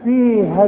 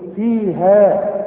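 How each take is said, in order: First: The final vowel is short, with no long a. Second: The final vowel is a long a sound. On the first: The reader carries on to the next word. "بلغيه من النطق" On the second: The reader stops on this word. "إنما إذا وقفت أقول إيه"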